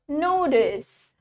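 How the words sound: The t sounds like a d. "In American, we pronounce the T as D"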